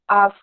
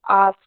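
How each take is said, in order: First: The vowel is long and drawn out. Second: The same.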